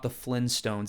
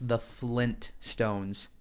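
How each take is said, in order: First: The word is said without a T sound. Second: The word is said with a T sound. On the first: The speaker calls it wrong. "is not" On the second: The speaker calls it right. "There's a T in between"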